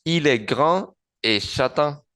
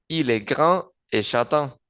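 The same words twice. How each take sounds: The two takes are said the same way.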